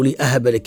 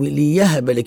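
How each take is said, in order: First: A glottal stop follows the first syllable. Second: A y sound follows the first syllable. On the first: The speaker is the one giving. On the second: Someone else is the one giving.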